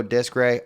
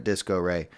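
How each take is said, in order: First: Disc Ray without the O; Disc Ray, two syllables. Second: O sounded in Disco Ray. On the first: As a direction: say Disc Ray, dropping the middle O. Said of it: "People go Disc Ray". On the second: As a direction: say Disco Ray as three syllables. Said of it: "I like calling it Disco Ray". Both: Shown as a demonstration.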